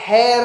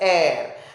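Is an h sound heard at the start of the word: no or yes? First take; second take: yes; no. First: The word starts with an audible h sound. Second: The word starts with a vowel, no h sound. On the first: The speaker calls it wrong. "hair नहीं बोलते हैं" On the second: The speaker calls it right. "we pronounce it as air"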